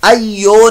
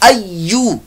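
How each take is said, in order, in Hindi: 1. शब्द का अंत o स्वर से होता है। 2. शब्द का अंत u स्वर से होता है। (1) "अय्यो नहीं"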